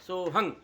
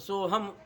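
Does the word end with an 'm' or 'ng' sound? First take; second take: ng; m. First: The word ends with a nasal ng sound. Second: The word ends with a closed m sound. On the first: The speaker calls it wrong. "इसी उच्चारण दोष से वो बोलते हैं सोहंग" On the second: The speaker calls it right. "तो सोहम हो गया"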